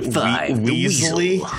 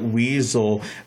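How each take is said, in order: First: The word ends with an 'ee' vowel sound. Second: The word ends with a plain 'l' sound. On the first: "I've seen other people pronounce it Weasley" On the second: "I've always pronounced it Weasel"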